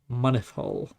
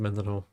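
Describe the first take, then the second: First: The name is said as Monith Hall. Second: The name is said as Mindenhall. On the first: This is the real local pronunciation. The speaker calls it right. "it's pronounced Monith" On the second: This is the speaker's own habitual pronunciation. The speaker calls it wrong. "I pronounce it Mindenhall"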